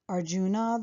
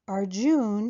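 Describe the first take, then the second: First: The final a sound is pronounced. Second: The final a sound is dropped.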